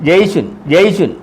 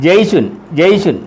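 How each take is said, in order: No difference in how they are said.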